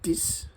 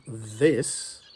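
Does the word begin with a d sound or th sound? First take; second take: d sound; th sound. First: The word begins with a hard d sound. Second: The word begins with a soft th sound. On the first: The speaker calls it wrong. "do you say dis" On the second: The speaker calls it right. "instead of saying this"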